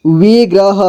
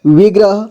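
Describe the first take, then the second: First: विग्रह as वि-ग्र-ह; syllable by syllable. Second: Said in the usual way. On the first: Shown as a demonstration. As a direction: sound out विग्रह in three parts. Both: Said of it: "एक ही बार में पढ़ेंगे".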